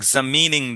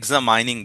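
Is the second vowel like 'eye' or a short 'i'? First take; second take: short i; eye. First: The second vowel is a short 'i' sound. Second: The second vowel sounds like 'eye'. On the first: The speaker calls it right. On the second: The speaker calls it wrong.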